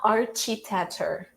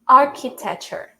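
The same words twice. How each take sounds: First: The middle sound is a ch sound. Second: The middle sound is a k sound. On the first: The speaker calls it wrong. "It's not architecture" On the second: The speaker calls it right. "in this word specifically, it's pronounced as k"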